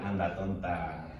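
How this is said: It is said in a gentle, affectionate tone.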